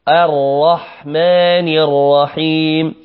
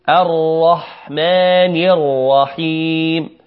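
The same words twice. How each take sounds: No difference in how they are said.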